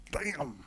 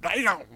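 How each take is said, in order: First: Soft slip of the tongue; quiet adult swearing in passing; muttered curse. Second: Higher mimicking child; mock child's echo, pitched up; kid copying parent. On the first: Acted. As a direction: let it slip under your breath. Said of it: "you're walking along one day and you say". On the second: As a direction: parrot the word like a little kid. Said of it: "you hear your kids say".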